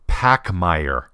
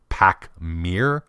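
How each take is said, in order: First: The second syllable sounds like 'mare'. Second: The second syllable sounds like 'meer'. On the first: "It's pronounced Pachmayr" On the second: "I've heard a number of different pronunciations, including"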